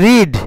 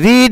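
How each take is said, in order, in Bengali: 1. স্বরধ্বনিটি ছোট, 'red'-এর মতো। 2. স্বরধ্বনিটি দীর্ঘ, 'reed'-এর মতো। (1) "বানান কিন্তু তিনটা একই" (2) "বানান কিন্তু তিনটা একই"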